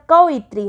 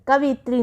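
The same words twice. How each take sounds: First: कवयित्री said as 'ka-va-yitri'; correct form. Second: कवयित्री said as 'kavitri'; wrong form. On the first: Teacher giving correct form, separated 'ka-va-yitri' in कवयित्री. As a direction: break कवयित्री open before 'itri'. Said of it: "कवयित्री होता है ये". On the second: Teacher rejecting a mistake, 'kavitri' for कवयित्री. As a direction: run कवयित्री together as kavitri. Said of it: "कवयित्री नहीं होता है". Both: Shown as a demonstration.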